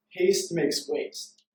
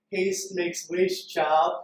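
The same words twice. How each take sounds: First: Said in the usual way. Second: Put-on slow, drawn-out old woman's proverb; lightly voiced sage granny, savouring each word; wise old grandmother. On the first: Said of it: "and she says". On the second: Speaker showing how the grandmother said it to him. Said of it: "like, more how she said it".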